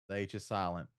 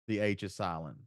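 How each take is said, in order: No difference in how they are said.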